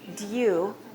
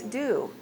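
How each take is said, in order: First: The word is said in a British accent. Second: The word is said in an American accent. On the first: "In British English, it's due" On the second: "In American English, it's do"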